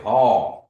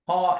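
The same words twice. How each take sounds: First: The word is drawn out long and stressed. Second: The pitch goes up on the word. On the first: It gives an answer. "really lengthening it out, or you really emphasize ha" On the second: It asks a question. "the tone goes up"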